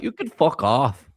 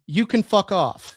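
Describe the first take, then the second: First: Imitating a Canadian accent. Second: Put-on Canadian accent. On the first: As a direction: say it like a riled Canadian. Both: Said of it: "In such a Canadian accent".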